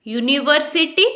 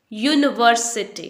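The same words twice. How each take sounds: First: "university" with full yu-nee, questioning rise; mistaken pronunciation. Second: "university" as yun-var-suh-tee, falling; no uni sound. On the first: Teacher testing the wrong form, slow rising yu-nee. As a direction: say "university" slowly as yu-nee-var-si-tee, higher. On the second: Teacher modelling the correct word, slow yun-var-suh-tee. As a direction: say "university" slowly with yun, no nee. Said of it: "आपने uni नहीं बोलना है". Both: Shown as a demonstration.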